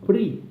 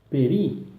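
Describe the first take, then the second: First: The first two consonants are said together. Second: A short e sound separates the first consonants. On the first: "Alguns falam pri" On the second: "ele é lido com o som de E"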